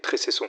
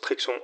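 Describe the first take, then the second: First: The name is said as three syllables, Trécesson. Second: The name is said as two syllables, Trexon. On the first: The speaker calls it right. "la prononciation exacte est Trécesson" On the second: The speaker calls it wrong. "je prononce Trexon"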